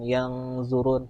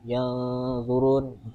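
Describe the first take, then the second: First: The nasal is a clear separate ng sound. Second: The nasal is blended softly into the z sound. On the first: The speaker calls it wrong. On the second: The speaker calls it right. "samarkan ke huruf zo-nya"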